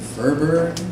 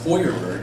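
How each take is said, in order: First: The name has an American pronunciation. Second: The name has a German pronunciation. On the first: The family name after coming to America. "the name became Furberg" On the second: The family name as it was originally. "In German, it's pronounced Feuerberg"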